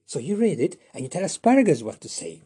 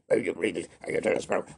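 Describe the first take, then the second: First: Said in the usual way. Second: Lower, quick, throwaway; brisk offhand take. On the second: Shown as a demonstration. Teacher showing a quicker other way to say the line. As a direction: rattle it off casually. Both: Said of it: "I said it in two different ways".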